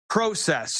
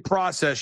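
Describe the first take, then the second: First: It is said in a Canadian accent. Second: It is said in an American accent. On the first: "you guys say process" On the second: "You don't say process"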